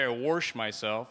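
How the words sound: It is said the Missouri way.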